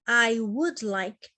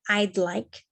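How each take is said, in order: First: The word would is said in full. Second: The word would is contracted to a d. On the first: "isso aqui é uma abreviação da palavra would" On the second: "Normalmente a gente vai falar sempre desse jeito mesmo"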